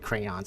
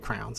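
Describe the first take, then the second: First: The word is said with two syllables. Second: The word is said with one syllable. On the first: This is how others say it. "I never say crayons" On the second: This is how people around here say it. "I always say crowns"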